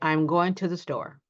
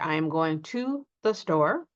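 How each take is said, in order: First: The words are shortened and run together. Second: Each word is said fully and separately. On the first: The speaker calls it right. "we reduce it, shorten it, and run it together" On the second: The speaker calls it wrong. "We normally don't say"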